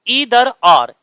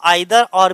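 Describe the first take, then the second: First: Either begins with an 'ee' sound. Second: Either begins with an 'eye' sound. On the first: "फिर दूसरा है हमारा ईदर और" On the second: "इसे हम आइदर और भी पढ़ सकते हैं, जैसा तुम्हारा मन करे वैसा पढ़ो"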